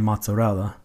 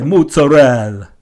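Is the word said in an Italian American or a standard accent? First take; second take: standard; Italian American. First: It is said in a standard pronunciation. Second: It is said in an Italian American accent.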